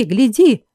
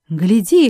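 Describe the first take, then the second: First: Second call pushed higher; insist, point at her; urgent shout. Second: Sudden cry. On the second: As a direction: call out to catch his eye. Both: A narrator's reading. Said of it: "вдруг закричала Жервеза".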